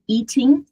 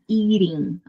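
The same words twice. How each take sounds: First: It is said with a British accent. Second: It is said with an American accent. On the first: "também está correto na, na pronúncia britânica" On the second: "Pronúncia americana"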